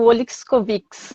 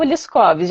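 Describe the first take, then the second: First: The surname ends with an extra final syllable. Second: The surname ends without an extra final syllable. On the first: This is how most people say it. "a tendência é fazer o Oliscovics" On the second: This is how the name's owner says it. "eu costumo dizer Oliskovs"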